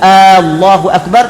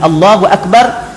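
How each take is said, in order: First: The opening vowel is drawn out long. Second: The opening vowel is said short. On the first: It asks whether God is the greatest. The speaker calls it wrong. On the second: It states that God is the greatest. The speaker calls it right.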